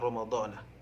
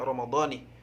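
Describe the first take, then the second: First: The word ends with the syllable na. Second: The word ends with the syllable ni. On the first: The speaker calls it wrong. "ataupun Ramadhana" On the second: The speaker calls it right. "jadi harus dibaca Ramadhani"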